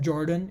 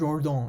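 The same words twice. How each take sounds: First: The name is pronounced the American English way. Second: The name is pronounced the French way. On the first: The speaker calls it wrong. "It's not an American name" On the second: The speaker calls it right. "it was a French mathematician. Hence the pronunciation is weird"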